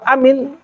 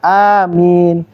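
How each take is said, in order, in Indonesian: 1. Vokal pertama diucapkan pendek. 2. Vokal pertama diucapkan panjang. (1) "Kalau amin itu beda nih" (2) "Ini A-nya panjang"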